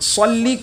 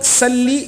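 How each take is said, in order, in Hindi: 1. 's' ध्वनि भारी और ज़ोरदार है। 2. 's' ध्वनि पतली और हल्की है। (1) "सौद की जगह" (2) "बारीक आवाज़ में पढ़ दिया, सौद की जगह सीन पढ़ दिया"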